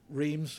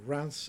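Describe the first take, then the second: First: The name is said with an English-style pronunciation. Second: The name is said with a French-style pronunciation.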